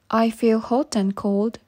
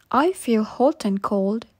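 Both takes have the same delivery.

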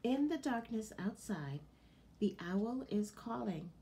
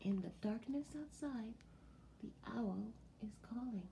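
First: Said in the usual way. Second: Softly, like the farm is asleep; hushed whisper. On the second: Shown as a demonstration. To children at bedtime, a hushed whisper. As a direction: drop to a soft bedtime whisper on the owl line. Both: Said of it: "repeated more softly".

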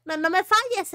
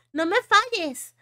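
First: Said in the usual way. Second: "No me falles" drawn out slowly, each word leaned on; emphatic slow repeat; slow pleading. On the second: Real, not acted. Repeated plea, slower.

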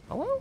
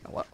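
First: Falsetto hello, way up high; squeaky high hello. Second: Said in the usual way. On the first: Pretend.

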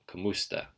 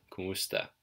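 First: Kamusta starting on "ka", stress on the second syllable. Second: Kumusta starting on "ku", stress on the second syllable "mu". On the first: Teacher showing either way sounds right, kamusta with "ka". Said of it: "Either way sounds right". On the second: Teacher showing either way works, kumusta with "ku". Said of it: "stress the second syllable". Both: Shown as a demonstration.

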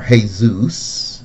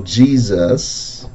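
First: "Jesus" drawn out slowly as hay-ZOOS; Spanish pronunciation. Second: Said in the usual way. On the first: Shown as a demonstration. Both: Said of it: "as some people pronounce it".

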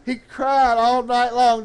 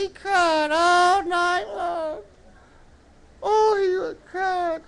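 First: Said in the usual way. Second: High, drawn-out puppet echo. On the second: Pretend. Puppet echoes the preacher.

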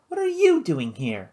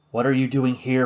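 First: Mildly whispered question, YOU pitched up; stress on YOU. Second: Said in the usual way. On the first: A narrator's reading. Sister turning her brother's question back, YOU stressed. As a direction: lean high on "you" in "doing here". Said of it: "she whispered".

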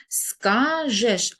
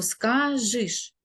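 First: "Скажеш" drawn out as ска-жеш; E in the ending. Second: "скажиш" drawn out as ска-жиш; Y in the ending. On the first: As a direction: pronounce "Скажеш" slowly with a clear е. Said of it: "значить пропущена буква". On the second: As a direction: say "скажиш" slowly with и instead of е. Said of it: "або". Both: Shown as a demonstration.

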